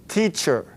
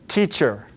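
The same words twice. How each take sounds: No difference in how they are said.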